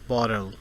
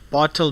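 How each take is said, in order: First: The middle T is a soft, quick tap. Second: The middle T is a crisp, hard T.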